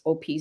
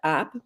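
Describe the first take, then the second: First: It is said as two separate letters. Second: It is said as a single short word. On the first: The speaker calls it right. "but it's O P Zoom" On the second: The speaker calls it wrong. "I would have said op"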